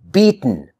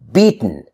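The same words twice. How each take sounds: The two takes are said the same way.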